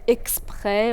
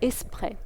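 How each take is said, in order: First: The consonant cluster is pronounced in full. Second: The consonant cluster is reduced and simplified. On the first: "au lieu de dire" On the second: "simplifications de groupes consonantiques"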